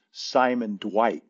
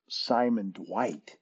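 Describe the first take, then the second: First: Said in the usual way. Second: Soft, slow, puzzled repeat of "Simon Dwight?"; disbelieving echo. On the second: Retold or imitated. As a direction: echo the name in quiet disbelief. Speaker's disbelieving echo of name.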